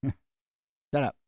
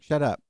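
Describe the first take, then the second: First: Laughing through the words; amused echo of the retort; laughing repeat. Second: A short, louder brush-off; mild mock annoyance; mock retort. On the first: Pretend. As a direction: say it again while cracking up. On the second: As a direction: snap it back like a fed-up kid. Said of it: "And you're like".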